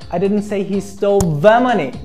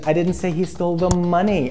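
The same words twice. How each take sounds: First: The stress falls on the word the. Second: The stress falls on the word money. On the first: A different sum of money was taken. "I meant another particular amount of money" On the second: Something other than money was taken. "I said he stole the car"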